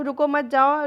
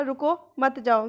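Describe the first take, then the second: First: रुको मत जाओ read with the break after रुको, as "stop, don't go"; first reading of an ambiguous phrase. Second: रुको मत जाओ slow, the break after मत, as "don't stop, go"; slow, pause after मत, then जाओ alone; second reading of the ambiguous phrase. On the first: Teacher showing one sense of रुको मत जाओ to students, pause after रुको. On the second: Teacher showing the other sense of रुको मत जाओ, slow, pause after मत. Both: Shown as a demonstration. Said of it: "तो इसके दो सेंस निकल रहे हैं".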